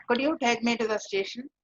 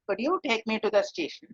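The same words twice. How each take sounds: First: Polite formal request with a rise at the end; formal rising question. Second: Formal question, tune falling at the end. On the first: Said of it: "a very formal way of saying". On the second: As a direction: ask it formally and neutrally. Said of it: "is a very formal tone". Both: Shown as a demonstration.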